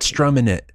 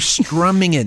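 First: The ending is a clipped -in without the g. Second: The ending is a full -ing with the g. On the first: The speaker calls it wrong. "not strumming it" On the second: The speaker calls it right. "you were strumming it"

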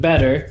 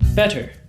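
First: The middle consonant sounds like a soft D. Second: The middle consonant sounds like a clear T. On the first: The speaker calls it wrong. "you want to make sure that you don't switch your T's into D's" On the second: The speaker calls it right. "You hear the T's"

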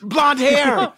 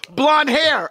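First: It is said in a rough, raspy voice. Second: It is said in a plain, normal voice.

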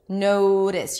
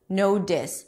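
First: The middle consonant is a quick, light flap. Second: The middle consonant is a full, firm D. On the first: The speaker calls it right. "then the T changes to re" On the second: The speaker calls it wrong. "it's not a real D because I don't say no dis"

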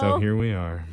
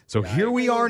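First: It is said in a sad, somber tone. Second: It is said cheerfully, with a smile. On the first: "I'll do it sad" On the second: "You always say that with such a smile on your face"

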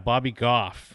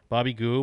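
First: The surname ends in an f sound. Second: The surname ends in a vowel sound. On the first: The speaker calls it right. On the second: The speaker calls it wrong.

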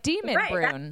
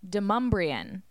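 First: It is read letter by letter, as spelled. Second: It is said like 'Demumbrian', with an m sound. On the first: The speaker calls it wrong. "I used to say it Demonbreun because it looks like Demonbreun" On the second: The speaker calls it right. "the Nashville pronunciation is Demonbreun"

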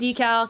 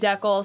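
First: The word has an American pronunciation. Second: The word has a Canadian pronunciation. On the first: "I say decal" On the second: "Canadians say decal"

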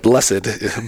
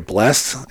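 First: The word is said as two syllables. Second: The word is said as one syllable. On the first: "and I'll be like, blessed" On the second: "I think you said something right here, blessed"

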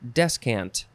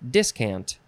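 First: The first syllable is pronounced 'des'. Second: The first syllable is pronounced 'dis'. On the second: "You could also spell it and pronounce it discant"

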